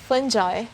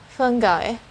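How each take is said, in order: First: The middle consonant is a J sound. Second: The middle consonant is a hard G. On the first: "you will hear the letter J sound instead of the letter G" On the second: "It's the sound of the letter G and not J"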